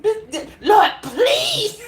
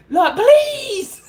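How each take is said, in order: First: High laughing Lord please. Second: High laughing plea, louder; laughing mock prayer. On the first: Retold or imitated. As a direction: squeal the plea through laughter. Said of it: "she had a master grip". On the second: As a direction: giggle out the prayer. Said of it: "Let her go downstairs".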